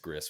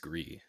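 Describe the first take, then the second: First: The name is said with an English pronunciation. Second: The name is said with a French pronunciation. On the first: The speaker calls it wrong. "I have heard them say it's Gris, which I'm like, why would you do that?" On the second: The speaker calls it right. "If it's French, it's Gris"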